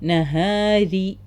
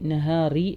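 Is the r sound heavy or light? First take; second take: light; heavy. First: The r sound is light and thin. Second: The r sound is heavy and thick. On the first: The speaker calls it right. "റ ഇവിടെ കെസറ വന്നുകൊണ്ട്" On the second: The speaker calls it wrong. "നഹാറി അല്ല"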